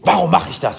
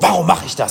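First: It sounds like an accusing reproach. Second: The same.

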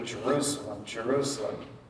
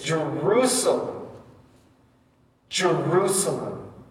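First: It is said plainly, without strong emotion. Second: It is said crying out with anguish.

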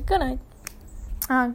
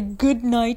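First: The words are clipped and cut short. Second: The words are said fully and clearly. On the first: "We say good night" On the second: "We don't say good night"

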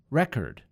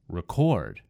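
First: The stress falls on the first syllable. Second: The stress falls on the second syllable. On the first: It is a noun. "In the first word, it was on the first syllable" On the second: It is a verb. "in the second word, I moved the emphasis to the second syllable"

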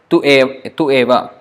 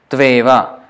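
First: The two words are said separately, unjoined. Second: The two words merge into one word. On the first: The speaker calls it wrong. "Otherwise it's tu eva" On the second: The speaker calls it right. "Tveva as one word"

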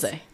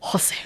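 First: The name is said with little accent. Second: The name is said with a stronger accent.

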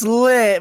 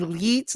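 First: The name has a short i vowel. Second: The name has a long ee vowel. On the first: "some people so it's lit" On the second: "like with E's, like they have like four, five"

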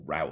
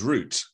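First: It is said with an American pronunciation. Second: It is said with a British pronunciation.

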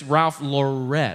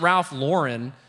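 First: The final N sound is left off. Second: The final N sound is clearly pronounced. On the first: The speaker calls it right. "we don't pronounce the N when saying that" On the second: The speaker calls it wrong. "So it's not Ralph Lauren, because that sounds, you know, wrong"

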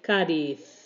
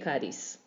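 First: It is said with an Andalusian accent. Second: It is said without an Andalusian accent.

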